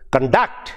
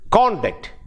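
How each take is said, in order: First: The stress is on the second syllable. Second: The stress is on the first syllable. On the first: It is used as a verb. "the stress is on the second syllable, and it is used as a verb" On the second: It is used as a noun or adjective. "first syllable, uh, can be used as a noun or adjective"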